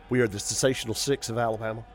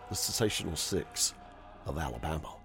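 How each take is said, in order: First: It is said fast. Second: It is said slowly.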